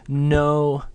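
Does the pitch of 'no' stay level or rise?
level. The pitch stays high and level throughout. "when said in this kind of level tone"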